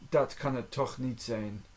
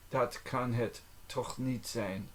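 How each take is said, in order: First: Said in the usual way. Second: Measured language-lesson enunciation. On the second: Shown as a demonstration. Phrase repeated slowly for learning.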